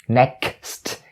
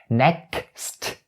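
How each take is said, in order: The two takes are said the same way.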